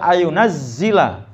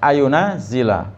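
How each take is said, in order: First: The z sound is doubled and held longer. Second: The z sound is short and light. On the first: "Wa tasydidi bisa dibaca" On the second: "Enggak pakai tasdid"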